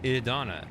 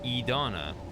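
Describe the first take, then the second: First: The first vowel is a short I sound. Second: The first vowel is a long E sound. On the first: "they all actually kind of say like a short I" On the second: "closer to E-Donna"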